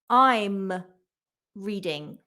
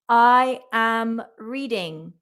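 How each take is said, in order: First: I am is shortened into one syllable. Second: I am is said as two full words.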